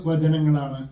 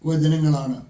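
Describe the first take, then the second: No difference in how they are said.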